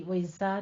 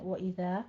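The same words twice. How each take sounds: First: وَإِذَا with a hissing whistled z sound; wrong whistled z. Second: وَإِذَا with a soft, gentle dh, no whistle; soft dhal. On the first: Teacher demonstrates the wrong whistling way to say وَإِذَا. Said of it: "सीटी, وَإِذَا नहीं कहना है". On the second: Teacher demonstrates the correct soft dh in وَإِذَا. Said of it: "दाल को नरमी से पढ़ेंगे". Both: Shown as a demonstration.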